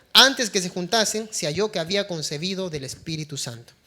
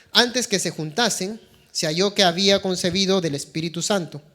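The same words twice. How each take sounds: Both takes have the same delivery.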